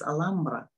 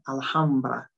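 First: The word is pronounced the Spanish way. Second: The word is pronounced the English way. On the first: "in Spanish, it's Alhambra" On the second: "in English, when I'm talking to you in English, I'm saying Alhambra"

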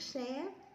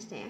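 First: The syllable has a smooth high rising tone. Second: The syllable has a broken, glottalized rising tone. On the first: "sắc xé" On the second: "ngã xẻ"

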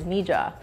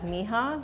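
First: The name is pronounced a non-Spanish way. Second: The name is pronounced the Spanish way. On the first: It comes from the initials of a daughter's names. "another pronunciation is Mija" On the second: It is the colloquial word for my daughter. "Spanish speakers will see it as Mija"

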